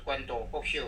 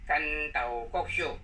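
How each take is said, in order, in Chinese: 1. 第一个音节念'guan'，有'u'。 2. 第一个音节念'gan'，没有'u'。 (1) "不是关刀国秀" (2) "地方音它是干刀"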